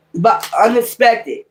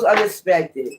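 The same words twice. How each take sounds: First: Slow, drawn-out "unexpected" with weight on each syllable; a slow, deliberate "But unexpected"; stress on unexpected. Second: Said in the usual way. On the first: Shown as a demonstration. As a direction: lean hard on "unexpected" to warn them. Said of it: "It's gonna happen unexpected".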